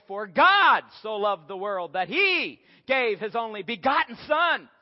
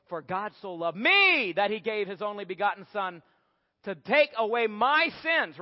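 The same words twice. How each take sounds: First: "God" hit hard and drawn out, read slowly and louder; stress on God. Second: "me" leaned on, the rest carried along after it; weight the word "me" as if the verse is all about you; stress on me. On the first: Preacher reading John 3:16 to the congregation, stress on "God". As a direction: lean on "God" so the verse is about him. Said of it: "And we can put all the emphasis on him". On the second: Preacher showing the self-centred reading to the congregation, stress on "me". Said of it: "We can put an emphasis on two different parts". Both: Shown as a demonstration.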